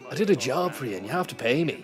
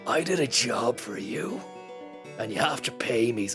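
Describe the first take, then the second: First: It is said in a put-on imitating voice. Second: It is read in a plain, natural voice.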